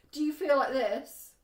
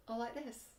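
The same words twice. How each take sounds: First: Bright, louder playful question, showing a great friendship; happy excited. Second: Much softer, dropped and glum, showing a bad friendship; deflated. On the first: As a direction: cheerfully act out feeling great. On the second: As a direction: let the air out, mock gloomy. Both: Shown as a demonstration. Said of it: "I'm being a bit silly".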